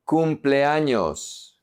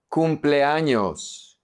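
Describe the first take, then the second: No difference in how they are said.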